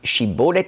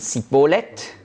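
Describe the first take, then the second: First: The word begins with a sh sound. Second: The word begins with an s sound. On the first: The speaker is not from Ephraim. "nicht Schibboleth sagen konnte" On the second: The speaker is from Ephraim. "nach dem ephraimitischen Dialekt"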